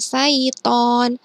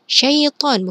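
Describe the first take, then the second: First: The word begins with a plain 's' sound. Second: The word begins with a 'sh' sound. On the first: The speaker calls it wrong. "bukan saiton" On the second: The speaker calls it right. "syaiton bukan saiton"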